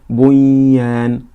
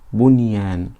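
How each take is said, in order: First: The n sound is merged into the following y. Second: The n sound is kept clear before the y. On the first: The speaker calls it wrong. "we don't say bunyan" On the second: The speaker calls it right. "but we say bunyan"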